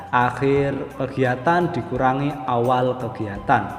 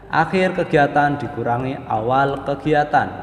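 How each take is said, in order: The two takes are said the same way.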